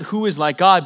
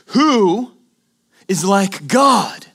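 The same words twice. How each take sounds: First: It is said as a flat statement. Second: It is said as a rhetorical question.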